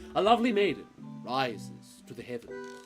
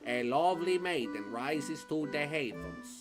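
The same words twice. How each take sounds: First: It is read in a dramatic put-on voice. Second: It is read in a normal voice.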